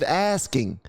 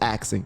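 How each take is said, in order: First: The middle sounds like s then k. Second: The middle sounds like k then s. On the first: The speaker calls it right. "See, I said asking" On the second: The speaker calls it wrong. "I used to say axing"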